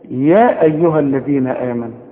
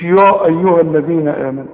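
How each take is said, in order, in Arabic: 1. صوت ya خفيف ورفيع. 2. صوت ya ثقيل ومفخم. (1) "ارجع للدروس الاولى هتلاقي" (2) "مش"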